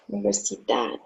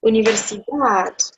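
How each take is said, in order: First: Universidad repeated much softer and lower. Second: Universidad in Spanish, stress on the final dad; agudo example. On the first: Teacher quietly repeats Universidad for the class. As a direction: murmur Universidad once more. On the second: Teacher models universidad as an agudo. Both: Shown as a demonstration. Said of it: "So we have".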